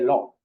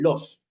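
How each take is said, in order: First: The final S sound is dropped completely. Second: The final S sound is clearly pronounced. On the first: "sino siempre lo" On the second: "nunca dicen los"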